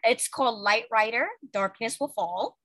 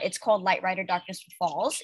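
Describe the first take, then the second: First: It is said slowly. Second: It is said fast.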